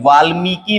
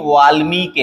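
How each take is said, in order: First: वाल्मीकि ending in long 'kee'; wrong final vowel. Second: वाल्मीकि with long 'mee', short 'ki'; correct final vowel. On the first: Teacher rejects a common error, वाल्मीकि with long final ee. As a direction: lengthen the last i of वाल्मीकि. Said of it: "नहीं है". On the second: Teacher gives the correction, वाल्मीकि with short final i. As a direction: stress मी and keep कि short in वाल्मीकि. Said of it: "है". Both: Shown as a demonstration.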